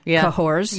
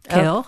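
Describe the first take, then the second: First: The name is pronounced with an American accent. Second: The name is pronounced with a French accent. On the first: "I'm going to say it in American" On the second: "in French you try to say kale"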